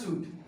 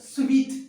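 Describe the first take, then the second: First: It is pronounced like 'soot'. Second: It is pronounced like 'sweet'. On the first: The speaker calls it wrong. "It's not a सूट" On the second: The speaker calls it right. "It's a स्वीट"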